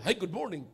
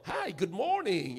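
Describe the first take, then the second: First: It is said flatly, without warmth. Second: It is said warmly, smiling and projected.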